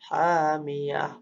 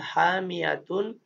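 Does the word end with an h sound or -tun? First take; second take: h sound; -tun. First: The word ends with a breathy h sound. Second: The word ends with a t sound and -un. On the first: This is the form used when stopping. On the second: This is the full form without stopping.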